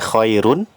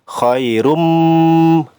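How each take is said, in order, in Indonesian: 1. Kata ini berakhir dengan bunyi n. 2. Kata ini berakhir dengan bunyi m. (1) "asalnya khairun" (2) "tanwin dhammah bertemu dengan huruf mim"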